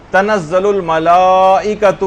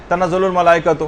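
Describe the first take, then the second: First: الملائکۃ read slowly with the long aa before ئ held; a careful recitation that gives الملائکۃ its full lengthening; with madd. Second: الملائکۃ rushed, with the long aa cut short; a careless recitation that drops the lengthening in الملائکۃ; without madd. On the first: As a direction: stretch the madd in تنزل الملائکۃ. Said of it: "یہاں پر ایک مد ہے". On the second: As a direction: skip the madd in تنزل الملائکۃ and read it quickly. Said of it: "اس طرح سے پڑھ لیا، مد پڑھا ہی نہیں". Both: Shown as a demonstration.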